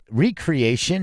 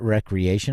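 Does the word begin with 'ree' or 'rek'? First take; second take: ree; rek. First: The word begins with a long 'ree' sound. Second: The word begins with a short 'rek' sound. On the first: A faithful copy made again. The speaker calls it right. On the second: Something done for fun. The speaker calls it wrong.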